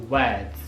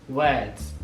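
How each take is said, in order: Both takes have the same delivery.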